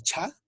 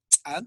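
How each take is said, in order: First: "cha" with a puff of air after the ch; aspirated CH. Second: "Cha" with a popped ch' and a tiny catch; explosive CH. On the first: Teacher introduces the aspirated palatal phoneme, puffed "cha". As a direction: breathe out hard through the ch of "cha". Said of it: "Fonema H H es el cha". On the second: Teacher shows the apostrophe's explosion, popped "Cha". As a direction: pop the ch of "Cha" sharply, without breath. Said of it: "tiene una explosión". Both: Shown as a demonstration.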